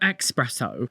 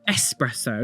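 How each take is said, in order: First: The word begins with a 'ks' sound. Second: The word begins with a plain 's' sound. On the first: The speaker calls it wrong. "not an X" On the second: The speaker calls it right. "It's an S"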